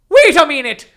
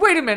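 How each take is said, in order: First: It is said in an attempted Irish accent. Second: It is said in the speaker's ordinary accent.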